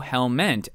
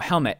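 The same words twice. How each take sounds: First: The word ends in an n then t sound. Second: The word ends in a plain t sound.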